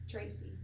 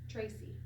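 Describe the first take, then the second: The two takes are said the same way.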